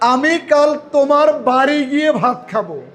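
The word বাড়ি is stressed. It is at the house, not elsewhere. "আমি এবার বাড়ি শব্দটাকে জোর প্রয়োগ করব"

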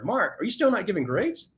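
It is asked in a friendly, curious tone.

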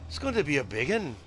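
It is said in a put-on Irish accent.

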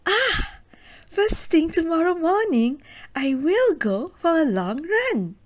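It sounds eager and full of excitement.

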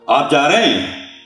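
It is said in a bossy, commanding tone.

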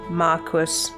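The word is said the British way. "in the UK, it's Marquis"

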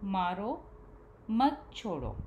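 The pause comes after the first word.

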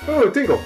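It is said with great enthusiasm.

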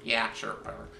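It is said in a put-on character voice.

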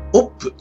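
The vowel sounds like a short 'o'. This is how Liverpool speakers say it.

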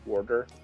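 The word is said in a New Jersey accent.

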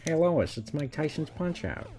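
It is said in a Peter Griffin voice.

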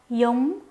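It is said in a southern Vietnamese accent. "남부식 발음 시작해 보도록 할게요"

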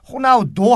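The name ends with an 'o' vowel. This is the English way of reading it. "여기 영어식인 거거든요"

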